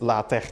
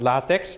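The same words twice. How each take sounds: First: The word ends with a 'k' sound. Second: The word ends with a 'ks' sound. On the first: It names the typesetting system. The speaker calls it right. "but LaTeX today" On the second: It names a different thing, not the typesetting system. The speaker calls it wrong. "So we're not going to be talking about LaTeX"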